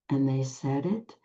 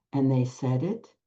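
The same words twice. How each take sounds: The two takes are said the same way.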